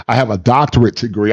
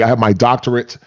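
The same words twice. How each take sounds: First: Said in the usual way. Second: "doctorate" stressed in imitation of a boast; mock emphasis. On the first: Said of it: "they don't say". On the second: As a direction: lean on "doctorate" like a title. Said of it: "They add emphasis to it".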